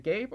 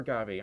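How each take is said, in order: First: Gabe said as one syllable, "gayb"; one-syllable pronunciation. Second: Gabe said as "GAH-bee"; two-syllable pronunciation. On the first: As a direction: say Gabe with a long A, rhyming with babe. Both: Shown as a demonstration. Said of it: "sorry if I mispronounced your name".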